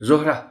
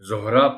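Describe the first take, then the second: First: The final h sound is made audible. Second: The word ends in a plain a vowel. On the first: The speaker calls it right. "आखिरी हे है उसको भी थोड़ा सा नुमायां करना है" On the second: The speaker calls it wrong. "ऐसे लगेगा कि रे के बाद यानी आखिरी हर्फ इस लफ्ज का अलिफ है, ऐसा नहीं है"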